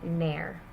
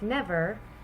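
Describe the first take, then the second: First: The v sound is dropped from the middle. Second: The v sound is pronounced in the middle.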